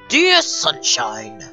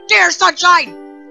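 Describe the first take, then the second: First: It is said in the speaker's own voice. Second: It is said in an imitation of Sayori's voice.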